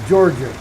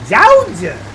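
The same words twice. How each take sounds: First: It is said in a neutral accent. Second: It is said in a Southern accent. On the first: This is the usual way to say it. "she would never say Georgia" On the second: This is how a local woman said it. "She would say Georgia"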